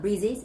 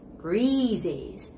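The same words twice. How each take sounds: First: The first vowel is short. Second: The first vowel is long. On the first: The speaker calls it wrong. "It's not breezes" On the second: The speaker calls it right. "it's got to be long vowel E sound"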